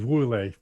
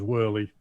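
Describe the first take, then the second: First: The name is said with a Dutch pronunciation. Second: The name is said with an English pronunciation. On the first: "I live in Holland, so it's Woerlee" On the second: "if you want to speak it out in English, it's Whirly"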